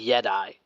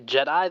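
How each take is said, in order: First: The word starts with a Y sound. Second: The word starts with a J sound. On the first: "they say Yedi" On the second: "they don't say Jedi"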